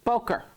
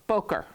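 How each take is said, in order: Both takes have the same delivery.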